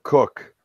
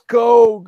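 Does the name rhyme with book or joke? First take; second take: book; joke. First: The vowel is short, like in book. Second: The vowel is long, like in joke. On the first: The speaker calls it wrong. "call H and K Heckler and Cook" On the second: The speaker calls it right. "It's Coke"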